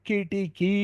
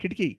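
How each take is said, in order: First: The last vowel is held long. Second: The last vowel is cut short. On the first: The speaker calls it right. "మూడవది దీర్ఘం కిటికీ" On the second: The speaker calls it wrong. "మూడు హ్రస్వాలుగా పలికేస్తున్నాం"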